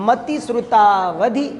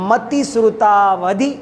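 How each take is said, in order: The two takes are said the same way.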